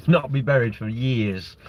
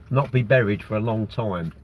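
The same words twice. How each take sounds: First: Chuckling through it, a touch slower; amused slower retake with a laugh. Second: Said in the usual way. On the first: Real, not acted. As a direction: laugh as you repeat the joke. Laughs at own joke.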